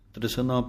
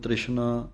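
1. ਵਿਚਲਾ ਵਿਅੰਜਨ ਸਾਦਾ ਸ ਦੀ ਆਵਾਜ਼ ਹੈ। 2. ਵਿਚਲਾ ਵਿਅੰਜਨ ਸ਼ ਦੀ ਆਵਾਜ਼ ਹੈ। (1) "ਪਾਠ ਹੈ ਰਾਹ ਦੇ ਸਿਹਾਰੀ ਲਾ ਕੇ" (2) "ਪੈਰ ਦੇ ਵਿੱਚ ਬਿੰਦੀ ਨਹੀਂ ਲਾਉਣੀ ਸਸੇ ਦੇ"

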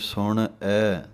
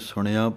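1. ਸ਼ਬਦ ਦੋ ਵੱਖ-ਵੱਖ ਹਿੱਸਿਆਂ ਵਿੱਚ ਵੰਡਿਆ ਹੋਇਆ ਹੈ। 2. ਸ਼ਬਦ ਦਾ ਅੰਤ ਲੰਬੀ 'aa' ਧੁਨੀ ਨਾਲ ਹੁੰਦਾ ਹੈ। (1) "ਇੱਦਾਂ ਵੀ ਬੋਲਦੇ ਹਨ ਵੱਖਰਾ ਵੱਖਰਾ, ਉਹ ਵੀ ਗਲਤ ਹੈ" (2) "ਐੜੇ ਨੂੰ ਕੰਨਾਂ ਲਾ ਦਿੰਦੇ ਹਨ, ਉਹ ਵੀ ਗਲਤ ਹੈ"

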